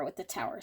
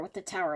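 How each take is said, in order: First: "with the tower" trailing off, softer and lower; a soft fading repeat of "with the tower"; fading echo. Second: Said in the usual way. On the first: Real, not acted. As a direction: let "with the tower" die away under the breath. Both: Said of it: "Holy camoly with the tower".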